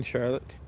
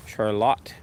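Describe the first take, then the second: First: Said in the usual way. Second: Charlotte with a full, stressed final LOTTE; stress on last syllable. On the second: Shown as a demonstration. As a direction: say Charlotte the Russian way, shar-LOT. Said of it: "The emphasis on the last syllable".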